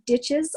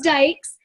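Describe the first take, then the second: First: The name ends with a 'ch' sound. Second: The name ends with a 'k' sound. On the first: The speaker calls it wrong. "People pronounce it ditches all the time" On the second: The speaker calls it right.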